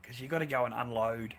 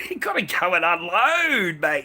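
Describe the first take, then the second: First: Said in the usual way. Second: Laughing loudly through the line. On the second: Real, not acted. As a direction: laugh it out, higher and louder. Laughs, repeats line louder.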